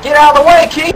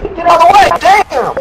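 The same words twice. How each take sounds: First: High, loud shout rising at the end; urgent shout. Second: High, loud shout falling on way; urgent shout. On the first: Warning Keith to move from the snake, loud rising shout. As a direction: yell a warning at your buddy. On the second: Warning Keith a second time, loud falling shout. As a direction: bark the warning again, harder. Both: Retold or imitated. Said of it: "And I'm like".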